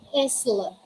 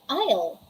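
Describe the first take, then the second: First: The s sound is pronounced. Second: The s sound is left out. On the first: The speaker calls it wrong. "We don't say isle" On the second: The speaker calls it right. "We say isle"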